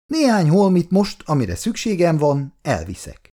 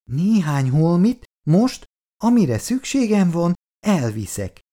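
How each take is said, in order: First: Said in the usual way. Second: "Néhány holmit most, amire szükségem van, elviszek" in separate, measured chunks; "Néhány holmit most, amire szükségem van, elviszek" said haltingly, pausing between phrases; broken into segments. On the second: A narrator's reading. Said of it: "ismételte Ferkó tagoltan".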